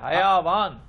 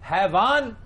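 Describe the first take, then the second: First: The word is said with three syllables. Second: The word is said with two syllables. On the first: The speaker calls it right. "ये हयावान है" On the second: The speaker calls it wrong. "हैवान गलत है"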